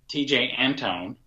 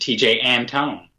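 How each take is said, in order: First: The stress is on the first syllable. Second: The stress is on the second syllable. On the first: "You lay the stress on the first syllable" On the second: "I lay the stress on the second syllable"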